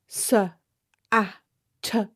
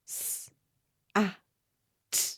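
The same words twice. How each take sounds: First: The consonants end with an added uh vowel. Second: The consonants are clean, with no added vowel. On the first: The speaker calls it wrong. "Adding an uh to sounds" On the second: The speaker calls it right. "Instead of saying"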